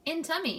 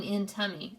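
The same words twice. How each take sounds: First: Put-on toddler voice. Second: Said in the usual way. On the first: Toddler answers brother.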